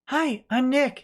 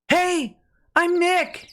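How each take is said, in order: First: It is said quietly. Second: It is said loudly.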